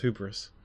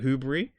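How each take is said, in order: First: The ending does not sound like debris. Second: The ending sounds like the end of debris. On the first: The speaker calls it right. "apparently it's pronounced as hubris" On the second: The speaker calls it wrong. "because like we call it um like you know debris"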